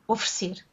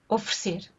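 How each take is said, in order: First: The unstressed vowels are reduced or dropped. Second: The unstressed vowels are reduced or dropped.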